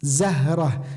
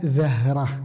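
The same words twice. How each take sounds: First: It begins with a buzzing 'z' sound. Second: It begins with a 'th' sound, tongue between teeth. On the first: The speaker calls it right. "Kata khusus huruf zai seperti zahrah" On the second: The speaker calls it wrong. "bukan dibaca zahrah"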